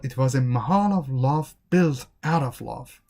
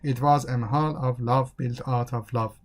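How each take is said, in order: First: "mahal" and "love" lifted and stressed; expressive rise and fall on "mahal of love"; showing feelings. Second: "mahal of love" on a level monotone; even, unstressed "built out of love"; no feelings. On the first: Teacher showing feeling for the Taj Mahal, expressive. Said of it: "It doesn't show any feelings if". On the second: Teacher showing talk without any feelings, monotone. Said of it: "It doesn't show any feelings if you talk like this". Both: Shown as a demonstration.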